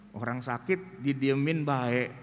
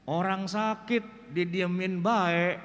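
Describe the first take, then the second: First: Said in the usual way. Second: Slow Betawi saying with "bae" drawn out; dialect quote. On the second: Retold or imitated. Quoting the village saying, slow Betawi drawl.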